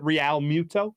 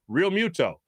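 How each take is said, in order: First: Realmuto as "ree-AL-moo-to", questioning rise at the end; Spanish-style mispronunciation. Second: Realmuto as "reel-MYOO-toe", falling at the end; plain American pronunciation. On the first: Shown as a demonstration. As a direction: put a Spanish curveball on Realmuto, two syllables in "Real". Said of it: "putting that little Spanish little curveball on it". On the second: Retold or imitated. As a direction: say "Real" in Realmuto as one plain syllable. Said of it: "A lot of people try to put too much".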